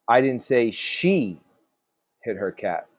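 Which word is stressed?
she. The stress falls on the word she. Someone else hit the cat. "So maybe somebody else did"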